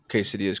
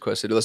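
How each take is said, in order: First: The word is said in a standard accent. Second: The word is said in a Boston accent.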